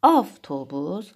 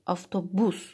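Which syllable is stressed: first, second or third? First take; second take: first; third. First: The stress is on the first syllable. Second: The stress is on the third syllable.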